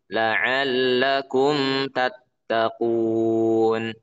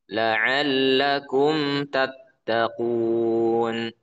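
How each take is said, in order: Both takes have the same delivery.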